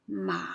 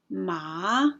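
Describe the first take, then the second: First: The pitch drops low then rises slightly. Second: The pitch rises from middle to high. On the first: "It's a dipping or falling rising tone" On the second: "The second tone is a rising tone"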